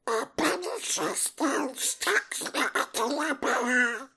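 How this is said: It is said in a Donald Duck voice.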